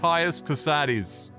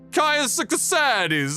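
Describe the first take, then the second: First: The name is said in a plain English accent. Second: The name is said with an Italian-like flair. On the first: "I'm gonna go with Caius Casades on this one" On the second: "Putting a little, almost like Italian"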